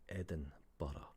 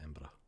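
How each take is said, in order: First: It is said slowly, with every syllable clear. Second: It is cut down to two quick syllables. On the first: "if you say it clearly and you pronounce it properly" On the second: "it's literally how we say it"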